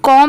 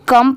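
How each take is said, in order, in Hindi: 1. स्वर 'aw' जैसा सुनाई देता है। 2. स्वर 'uh' जैसा सुनाई देता है। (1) "इसे कॉम नहीं पढ़ेंगे" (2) "कम पढ़ेंगे"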